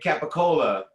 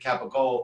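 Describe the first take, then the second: First: It is said in standard Italian pronunciation. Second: It is said shortened, the Sicilian way.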